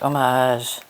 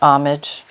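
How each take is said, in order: First: The ending sounds like the end of 'decoupage'. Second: The ending does not sound like 'decoupage'.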